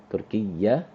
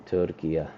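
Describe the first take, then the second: First: "تركية" with the ya doubled and held, shadda clearly sounded; "تركية" with the final ya doubled and pressed; stressed ya ending. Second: Said in the usual way. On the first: Shown as a demonstration. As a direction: lean on the doubled ya at the end of "تركية". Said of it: "emphasize this ending, the ya with the shadda". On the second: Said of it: "emphasize this ending".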